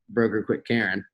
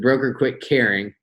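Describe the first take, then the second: First: Caring is said with a Southern vowel, like Karen. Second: Caring is said with a standard vowel. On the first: "but I say broker quit Karen" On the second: "So that was actually caring"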